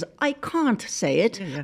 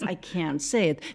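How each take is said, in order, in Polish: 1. Jest to powiedziane z brytyjskim akcentem angielskim. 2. Jest to powiedziane z amerykańskim akcentem angielskim. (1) "British English is" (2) "American is"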